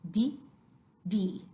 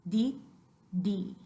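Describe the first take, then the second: The two takes are said the same way.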